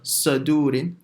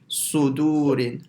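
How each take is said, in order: First: The first vowel is an open a sound. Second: The first vowel is a rounded u sound. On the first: The speaker calls it wrong. "don't say uh, sa, sadurin" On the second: The speaker calls it right. "your mouth goes slightly roundish"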